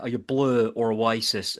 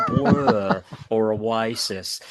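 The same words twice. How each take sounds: First: A slow, bad Irish accent asking the question; hammed-up Irish accent, lightly done; terrible Irish accent. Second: Very slow, drawn-out celebrity voice, breaking into a laugh; mock impression of a drawling TV presenter; Lloyd Grossman impression. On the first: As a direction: put on a clumsy Irish accent, like in Father Ted. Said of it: "that's the terrible Irish accent". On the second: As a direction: stretch each word like a TV presenter. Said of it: "Sound like Lloyd Grossman".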